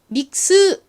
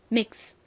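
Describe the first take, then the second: First: The final s-sound ends in a strong vowel. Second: The final s-sound fades out like escaping air. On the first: The speaker calls it wrong. "믹스 이렇게 스를 세게 하시면 안 되고요" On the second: The speaker calls it right. "약하게 발음을 해주셔야 됩니다. 바람 빠지듯이"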